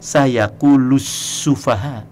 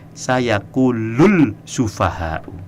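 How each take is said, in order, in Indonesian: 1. Bunyi l menyatu menjadi bunyi s ganda. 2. Bunyi l terdengar sebelum s. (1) "Tapi dia bacanya benar" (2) "Dia tidak baca begini"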